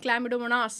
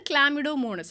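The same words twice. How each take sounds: First: Chlamydomonas ending in a long "-naas"; alternative pronunciation. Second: Chlamydomonas ending in a short "-nus"; first pronunciation variant. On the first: Teacher offering students the other variant, Chlamydomonas said with long "-naas". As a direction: say Chlamydomonas with an open, drawn last syllable, "-mo-naas". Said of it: "അല്ലെങ്കിൽ Chlamydomonas എന്നൊക്കെ പറയും".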